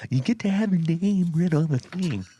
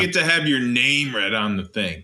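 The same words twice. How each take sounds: First: High, far cartoon announcer; vintage cartoon voice. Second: Flat, bored read. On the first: Shown as a demonstration. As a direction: ham it up like an old cartoon. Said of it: "Lean, lean into the mic". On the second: Real, not acted. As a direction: read it like you don't care. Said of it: "Oh, you sound bored".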